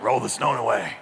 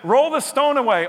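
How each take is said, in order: First: It is said in a gravelly Batman voice. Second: It is said in his normal voice.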